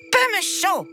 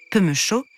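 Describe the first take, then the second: First: Put-on high, haughty child voice; haughty little prince. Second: Said in the usual way. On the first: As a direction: toss off "Peu me chaud" like a spoilt royal.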